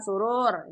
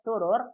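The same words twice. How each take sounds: First: The second vowel is long. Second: The second vowel is short. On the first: It means happiness. "kalau panjang surur, ini artinya kesenangan" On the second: It means couches. "Kalau surur yang pendek, surur artinya dipan-dipan"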